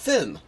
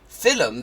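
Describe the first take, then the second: First: The word is said in a standard English way. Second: The word is said in an Irish way. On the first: "not film" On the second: "That is that is very distinctly Irish"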